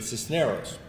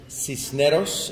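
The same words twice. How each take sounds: First: It has an English pronunciation without a rolled R. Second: It has a Spanish pronunciation with a rolled R. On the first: "I'll accept the English pronunciation" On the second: "in Spanish, if you can roll the R's"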